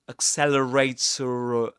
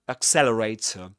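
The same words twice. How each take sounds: First: A final r sound links into the next vowel. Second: The final r sound is not pronounced. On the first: "this pronounced r sound in this case um, a linking r" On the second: "The last um, sound, the last letter is not pronounced"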